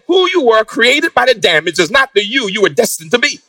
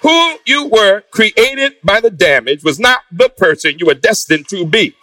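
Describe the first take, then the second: First: It is said fast. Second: It is said slowly.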